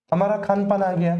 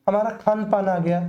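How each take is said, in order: Both takes have the same delivery.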